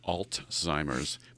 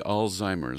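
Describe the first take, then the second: First: A t sound comes before the z sound. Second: No t sound comes before the z sound. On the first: The speaker calls it wrong. "I tend to put a T in it" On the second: The speaker calls it right. "but it's really Alzheimer's"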